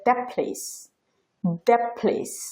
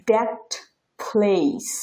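First: "that place" with the t swallowed into p, "thap place"; assimilated that place. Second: Said in the usual way. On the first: Shown as a demonstration. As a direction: merge "that place" so t and p fuse. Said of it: "ওরা উচ্চারণ করে". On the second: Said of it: "পরের যে উদাহরণটা".

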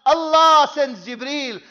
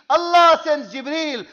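No difference in how they are said.

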